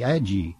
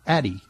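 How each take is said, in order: First: The name ends with a 'yee' sound. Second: The name ends with a plain 'ee' sound. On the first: The speaker calls it wrong. "seem like it should be pronounced Ad-Ye. Hear ye" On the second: The speaker calls it right. "But no, it's pronounced Addy"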